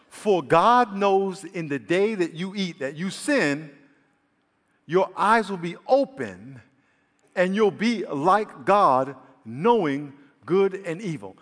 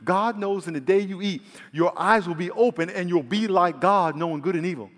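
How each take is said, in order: First: It is read slowly with pauses. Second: It is read at a normal speed.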